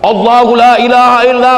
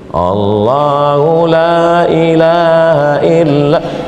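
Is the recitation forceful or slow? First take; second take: forceful; slow. First: It is recited loudly and forcefully. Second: It is recited slowly and weakly. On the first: The reciter is serious. The speaker calls it right. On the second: The reciter does not sound serious. The speaker calls it wrong. "baca slow"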